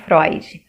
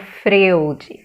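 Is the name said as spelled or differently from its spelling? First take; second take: differently; as spelled. First: The name is pronounced differently from its spelling. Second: The name is pronounced letter by letter, as spelled. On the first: The speaker calls it right. "e não Freud" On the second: The speaker calls it wrong. "lendo Freud"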